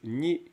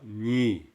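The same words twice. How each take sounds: First: The word is said with a high tone. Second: The word is said with a low tone. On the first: The speaker calls it right. "elles passent à ton O quand elles sont préfixées" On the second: The speaker calls it wrong. "Vous ne dites pas ni. Parce que normalement, le nya est une lettre à ton bas"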